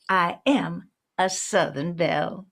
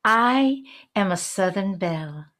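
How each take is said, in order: First: Southern belle accent on "I am a Southern belle". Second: Said in the usual way. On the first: Shown as a demonstration. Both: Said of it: "quickly put on a Southern accent".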